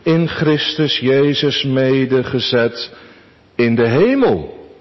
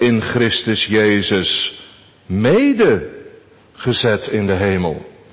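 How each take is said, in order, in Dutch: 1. De klemtoon valt op het woord hemel. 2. De klemtoon valt op het deel mede. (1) "Onze eerste gedachte" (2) "Onze derde gedachte"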